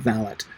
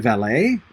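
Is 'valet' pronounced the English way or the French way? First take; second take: English; French. First: It is pronounced the English way, with a final t. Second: It is pronounced the French way, without a final t. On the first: "pronounce it the English way" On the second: "Valet is too French"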